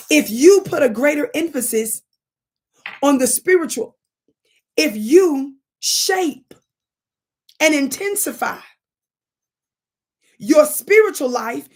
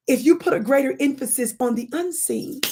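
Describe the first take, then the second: First: Louder and higher, drawn out word by word; building emphasis. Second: Said in the usual way. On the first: Real, not acted. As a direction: lean into each phrase like a preacher. Building the point into preaching.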